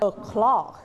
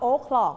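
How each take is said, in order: First: The stress is on the second syllable. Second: The stress is on the first syllable.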